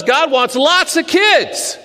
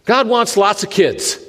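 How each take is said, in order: First: Put-on "God wants lots of kids" said high and slow, leaning on "kids"; insistent, drawn-out emphasis on "kids"; emphatic repeat. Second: Said in the usual way. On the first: Shown as a demonstration. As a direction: land each word slowly for weight.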